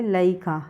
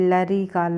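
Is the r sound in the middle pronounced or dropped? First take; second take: dropped; pronounced. First: The r sound in the middle is dropped. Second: The r sound in the middle is pronounced.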